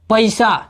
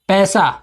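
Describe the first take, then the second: First: The vowel is said the Bhojpuri way. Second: The vowel is said the standard Hindi way. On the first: "Bhojpuri में बोलेंगे" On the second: "Hindi में कहते हैं"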